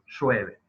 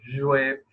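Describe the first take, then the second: First: The first consonant is a voiceless hissing sound. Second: The first consonant is a voiced buzzing sound. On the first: "el tercer caso es sordo" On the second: "En el primer caso decíamos es sonoro"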